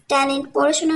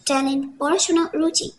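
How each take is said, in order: First: Said in the usual way. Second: talent, পড়াশোনা, রুচি each set apart by pauses, thrown back sarcastically; mocking echo. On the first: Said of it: "গলায় স্পষ্ট তাচ্ছিল্য". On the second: A narrator's reading. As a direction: echo her own words "talent, পড়াশোনা" back at her, word by word. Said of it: "ঝুঁকে রমণীর বিভ্রান্ত মুখমণ্ডলের পানে চেয়ে ইরম বলল".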